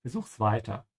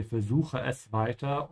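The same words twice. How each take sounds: First: "Versuch's" run together, both e's dropped; contracted form. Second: "Versuche es" said in full, es as its own word; full form. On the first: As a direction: contract it to "Versuch's", with just an s ending. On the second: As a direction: say "Versuche es" uncontracted, every syllable there. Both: Shown as a demonstration. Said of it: "remove both these S's and put an apostrophe".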